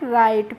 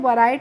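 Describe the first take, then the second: First: The word starts directly with the r sound. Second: A w sound is heard before the r. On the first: The speaker calls it right. "राइट पढ़ते हैं" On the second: The speaker calls it wrong. "इसीलिए हम इसको वराइट नहीं पढ़ते हैं"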